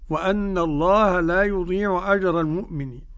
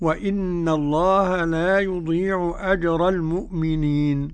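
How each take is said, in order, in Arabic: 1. الهمزة تتبعها حركة a. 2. الهمزة تتبعها حركة i. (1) "والباقون إيه بالفتح" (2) "قرأ الكسائي بكسر الهمزة"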